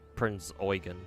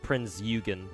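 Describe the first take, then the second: First: The first vowel sounds like 'oi'. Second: The first vowel does not sound like 'oi'. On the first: The speaker calls it right. "it's actually Prince Eugen apparently" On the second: The speaker calls it wrong. "initially that's why I called her"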